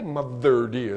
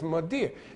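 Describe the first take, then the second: First: Both words are said fully and separately. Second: The words run together into one reduced word. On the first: The speaker calls it wrong. "You don't say mother dear" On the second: The speaker calls it right. "it's Madeir. It's elided"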